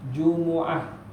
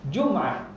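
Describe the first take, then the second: First: The vowel after the m is u. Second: There is no vowel after the m. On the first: "boleh dibaca dengan dhammah mim" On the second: "ada lugah yang baca dengan sukun"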